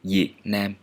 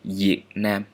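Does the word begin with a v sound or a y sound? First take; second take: y sound; y sound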